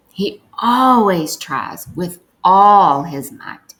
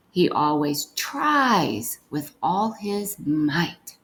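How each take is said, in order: First: Louder, emphatic reading with feeling; with emotion. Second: "tries" given the stress, slow reading. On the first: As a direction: read it with real emotion. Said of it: "read it with some emotion". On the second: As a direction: lean on the word "tries". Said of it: "stress whichever words need to be stressed". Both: Shown as a demonstration.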